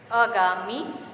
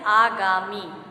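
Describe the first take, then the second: First: अगामी with a short opening a, "uh-gaamee"; mispronunciation. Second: आगामी with long opening "aa", "aa-gaamee"; correct pronunciation. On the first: Teacher repeating the wrong form, short opening vowel. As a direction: say अगामी with a clipped first vowel. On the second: Teacher giving the correct pronunciation, long first vowel. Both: Shown as a demonstration. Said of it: "जबकि शुद्ध उच्चारण इसका है".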